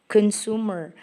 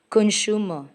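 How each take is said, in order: First: It is said in a non-British accent. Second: It is said in a British accent.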